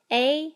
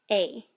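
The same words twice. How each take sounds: First: "A" rising high like a question; asking tune on "A". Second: "A" dropping down; falling tone. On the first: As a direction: swing "A" upward. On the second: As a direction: let "A" fall like a backslash. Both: Shown as a demonstration. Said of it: "Let's say the entire row".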